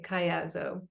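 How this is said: It is said the American way.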